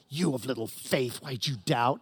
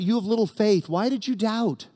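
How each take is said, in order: First: It is said in a harsh, scolding tone. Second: It is said in a gentle, encouraging tone.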